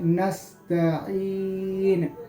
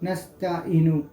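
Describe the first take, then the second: First: The 'ee' vowel is stretched out long. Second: The 'ee' vowel is said short, not stretched. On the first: The speaker calls it right. "खींच के पढ़ना है" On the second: The speaker calls it wrong. "ये गलत है"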